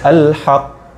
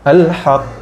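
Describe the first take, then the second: First: The word stops on the final consonant. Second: The same.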